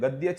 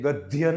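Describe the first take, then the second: First: The middle cluster is a plain unaspirated 'dy'. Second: The middle cluster is an aspirated consonant sound. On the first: The speaker calls it right. "તે ગદ્ય છે" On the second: The speaker calls it wrong. "નથી"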